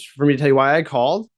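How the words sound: The pitch rises toward the end. The caller seems nervous and salesy. The speaker calls it wrong. "it's getting higher and higher"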